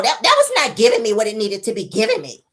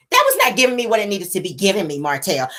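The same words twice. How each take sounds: First: Female voice. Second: A hint of a male voice. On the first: Mel telling Martell, woman's voice. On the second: Retelling Mel's line to Martell, male voice. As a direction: say it as a man would. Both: Shown as a demonstration. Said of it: "I gotta say it in male voice".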